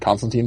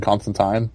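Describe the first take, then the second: First: Put-on "Constantine" ending like "teen"; last syllable of "Constantine" as TEEN; teen pronunciation. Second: "Constantine" ending like "tine"; last syllable of "Constantine" as TYNE; assumed pronunciation. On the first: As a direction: say "Constantine" with a long ee at the end. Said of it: "had never heard the word Constantine before". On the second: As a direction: say "Constantine" with a long i at the end. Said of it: "I would have assumed Constantine". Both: Shown as a demonstration.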